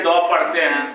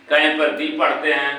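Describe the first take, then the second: First: "द" said short, like "duh"; "द" short, not "दी". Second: "दी" said with a long ee; "दी" with a long vowel. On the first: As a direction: say "द" with a short vowel. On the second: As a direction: stretch it to "दी". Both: Shown as a demonstration.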